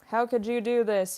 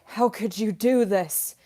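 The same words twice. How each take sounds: First: It is said flatly, with little pitch movement. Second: It is said expressively, with lively pitch movement. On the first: The speaker calls it wrong. "You don't want to be like" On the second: The speaker calls it right. "you do want to have good inflection"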